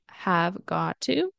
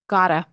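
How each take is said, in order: First: Each word is said fully and separately. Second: The words are reduced and blended together.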